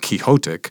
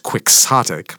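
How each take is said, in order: First: The word is pronounced with Spanish-style sounds. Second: The word is pronounced with English-style sounds. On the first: "which is in Spanish language, it's pronounced quixotic" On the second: "but in English it's you would say it as quixotic"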